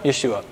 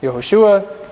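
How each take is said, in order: First: "Yeshua" contracted, low and soft; short form. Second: "Yehoshua" with every syllable, set against the short form; full form. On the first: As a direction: drop to a quieter, shortened "Yeshua". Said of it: "Yeshua could be a short form". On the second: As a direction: demonstrate "Yehoshua" as the long name. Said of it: "could be a short form of". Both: Shown as a demonstration.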